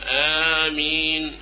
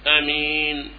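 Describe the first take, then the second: First: The opening vowel after the glottal stop is long. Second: The opening vowel after the glottal stop is short. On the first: "أن تمد الهمزة فتقول آمين، هذا المد" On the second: "والقصر آمين، آمين من غير مد"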